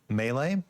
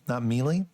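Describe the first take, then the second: First: The word is said the standard way. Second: The word is said as it is spelled. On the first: The speaker calls it right. "it's actually um, melee" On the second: The speaker calls it wrong.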